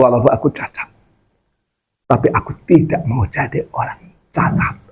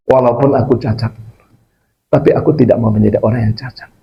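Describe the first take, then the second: First: Spaced-out, deliberate line with "tidak" and "cacat" weighted. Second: Said in the usual way. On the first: Retold or imitated. Closing quote repeated for emphasis.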